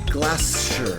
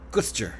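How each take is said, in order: First: The word is said with more than two syllables. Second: The word is squeezed into two syllables. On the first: The speaker calls it wrong. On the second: The speaker calls it right.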